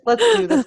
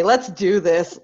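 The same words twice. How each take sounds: First: Higher, louder hype cry; excited. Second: Said in the usual way. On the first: Real, not acted. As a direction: pump everyone up. Repeats rallying line, pumped up.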